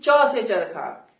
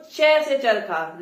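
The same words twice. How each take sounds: First: "च" said short with a plain a vowel, slow; standard "च". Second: "चै" said with an open ai vowel, slow; Haryanvi "चै". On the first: Teacher contrasting the standard letter sound. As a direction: say "च" short and clean. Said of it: "न कि च से चरखा". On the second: Teacher showing the regional letter sound. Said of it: "मतलब कि वो चै से चरखा". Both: Shown as a demonstration.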